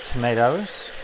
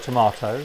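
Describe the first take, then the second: First: It is said with an American accent. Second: It is said with an English accent.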